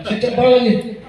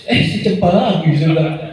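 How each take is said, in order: First: Repeated with a higher laugh; delighted, pitch lifted with laughter. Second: Chuckling as he says it; amused laugh through the words. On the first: Preacher repeats it to the congregation, laughing higher. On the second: Preacher amused telling the congregation about Cempaka, laughing lightly. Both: Real, not acted.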